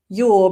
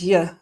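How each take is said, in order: First: The word 'your' is said in full. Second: The word 'your' is reduced to a weak vowel.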